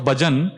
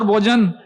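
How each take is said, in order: First: The word is said in a plain, non-Bengali accent. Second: The word is said in a Bengali accent. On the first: This is the intended word, devotional singing. "What he meant was Bhajan" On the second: It sounds like an invitation to a meal. "So they have their accent"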